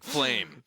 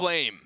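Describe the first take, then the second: First: The name is said dramatically and epically. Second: The name is said plainly, without drama.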